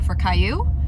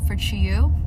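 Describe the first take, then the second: First: The name is said as Caillou. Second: The name is said as Chiyu. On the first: Someone else misread the name. The speaker calls it wrong. "they're like, oh, for Caillou" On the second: This is the intended pronunciation of the name. The speaker calls it right. "I tell them like for Chiyu"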